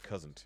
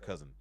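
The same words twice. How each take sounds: First: The word is said with an added T sound. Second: The word is said plainly, without a T sound. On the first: "They put a T on it" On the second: "just calling someone their cousin"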